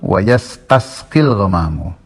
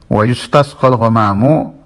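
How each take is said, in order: First: The verb is said yastasqil, starting with ya. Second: The verb is said yustasqal, starting with yu. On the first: "kalau yang riwayat Gentur itu wa yastasqil ghamamu" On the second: "Hanya ada bedanya lafaznya"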